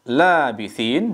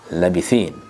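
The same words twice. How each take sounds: First: The first vowel is held long. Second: The first vowel is kept short. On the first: "dengan memanjangkan la" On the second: "La-nya dibaca pendek"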